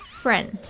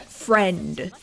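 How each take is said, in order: First: The final consonant is softened and barely released. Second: The final consonant is crisp and fully released. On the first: "I would like soften the final letter of the word" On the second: "It was no longer like uh friend"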